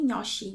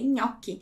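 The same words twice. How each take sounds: First: The ch is said as a soft sh sound. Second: The ch is said as a hard k sound. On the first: The speaker calls it wrong. "eu não falei gnocchi" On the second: The speaker calls it right. "eu falei gnocchi"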